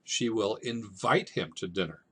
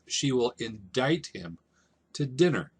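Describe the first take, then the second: First: "invite" said calmly as the right word; the proper line, "invite him to dinner"; a teacher giving the correct "invite". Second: "indict" said in place of "invite", "dinner" stressed; the malapropism "indict him to dinner", stressed; a teacher showing the wrong word "indict". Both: Shown as a demonstration. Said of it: "what he probably should have said is".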